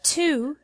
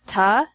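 First: The word is said in full as "to". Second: The word is reduced to "ta". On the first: "The word to becomes ta or a" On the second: "becomes ta"

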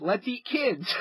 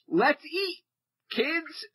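First: There is no pause before kids. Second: There is a pause before kids.

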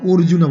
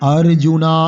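First: The first vowel sounds like an 'o'. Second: The first vowel sounds like an open 'a'. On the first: The speaker calls it wrong. "অর্জুন বলি আমরা, ও নয় অ" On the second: The speaker calls it right. "সংস্কৃত অ বলতে হবে"

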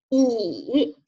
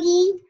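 First: The pitch dips low then rises. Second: The pitch stays high and level. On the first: "三声呢，读乙" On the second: "一声一"

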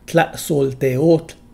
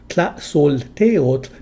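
First: The stress is on the final syllable. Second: The stress is on the second-to-last syllable. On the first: A woman is calling someone by name. "If the speaker is female, the final syllable is stressed instead" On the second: The word is used as an ordinary noun. "A word's penult, or second-to-last syllable, is almost always stressed"

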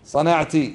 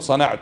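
First: The word ends with a short i vowel. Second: The word ends with a short u vowel. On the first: A woman being addressed did it. "والمخاطبة ماذا يقال لها؟" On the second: The speaker did it. "أحسنت متحدث، قلت صنعت"

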